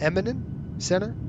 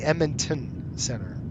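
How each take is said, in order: First: The name is shortened, sounding like 'Eminent'. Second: The name is said in full, 'Edmonton'. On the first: This is how the controllers say it. "Notice how they pronounce that" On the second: This is how it is not said by the controllers. "So they don't say Edmonton Center"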